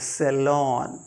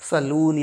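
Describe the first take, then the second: First: The second syllable has an 'o' vowel. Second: The second syllable has a long 'oo' vowel. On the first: The speaker calls it right. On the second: The speaker calls it wrong. "saloon या कुछ और नहीं"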